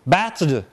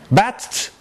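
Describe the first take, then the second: First: The word ends in a voiced d sound. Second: The word ends in a voiceless t sound. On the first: "affixing on this duh at the end" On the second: "We change this from voiced to voiceless"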